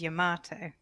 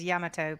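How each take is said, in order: First: One syllable is clearly stressed over the others. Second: No syllable is stressed; the word sounds even. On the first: This is how Americans say it. "but Americans say it is Yamato" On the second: This is how it is said in Japanese. "correct Japanese pronunciation also is Yamato because they don't really emphasize syllables"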